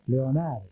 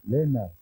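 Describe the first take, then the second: First: The name begins with a 'leo' sound. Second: The name begins with a short 'len' sound. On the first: This is the name's proper form. "la verdadera pronunciación" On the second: This is the nickname everyone uses for him. "con la pronunciación de los irlandeses"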